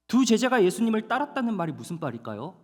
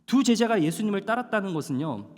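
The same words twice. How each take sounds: First: 두 lifted high, rising question; stress on 두. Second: 두 hit firmly, falling close; stress on 두. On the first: (두를 높게 강조하며 묻기) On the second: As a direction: lean on 두 and let it fall. (두에 힘주어 내려 말하기) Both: Shown as a demonstration. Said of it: "한번 따라해 볼까요?".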